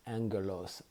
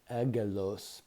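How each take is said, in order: First: "angelos" with an n sound before a hard g; correct Greek pronunciation. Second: "agelos" said as spelled, with no n sound before the g; spelling pronunciation. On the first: Teacher shows how the Greek word is really pronounced, correct pronunciation. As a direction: say "angelos" as ANG-geh-lohs, sounding the n. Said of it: "but it's pronounced angelos". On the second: Teacher shows listeners how the Greek word looks, spelling pronunciation. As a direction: say "agelos" with a plain hard g, the n left out. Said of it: "it looks like agelos". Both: Shown as a demonstration.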